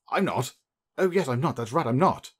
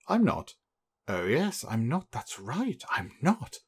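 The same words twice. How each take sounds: First: The line is spoken at a quicker, ordinary pace. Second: The line is spoken slowly and hesitantly. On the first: The speaker calls it wrong. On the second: The speaker calls it right.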